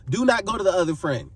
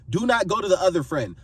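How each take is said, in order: Both takes have the same delivery.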